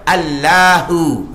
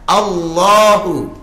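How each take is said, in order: First: The doubled L is said light and thin. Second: The doubled L is said heavy and thick. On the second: "ditakhimkan, ditebalkan"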